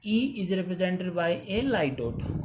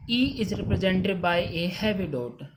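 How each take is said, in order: First: Each word of "E is represented by a light dot" spaced out slowly; teacher dictating the rule word by word; slow dictation. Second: Each word of "E is represented by a heavy dot" spaced out slowly; teacher dictating the rule word by word; slow dictation. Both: Shown as a demonstration. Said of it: "reading the rule slowly".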